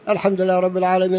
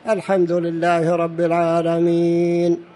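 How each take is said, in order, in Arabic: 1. تُقرأ بسرعة، متصلةً بلا وقف. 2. تُقرأ ببطء، مع الوقف عند آخر الآية. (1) "يقرأ الإنسان بسرعة" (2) "يقف عند آخر الآية ... قراءته على مهل"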